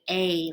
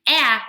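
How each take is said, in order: First: The vowel is said as its letter name. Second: The vowel is said as its short sound. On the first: "we're going to say A" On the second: "instead of saying A"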